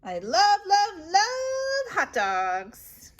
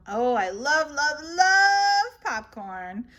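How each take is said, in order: First: Slow, high, swooning love; gushing. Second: Gushing. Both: Acted. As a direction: swoon over the popcorn. Gushing over snacks.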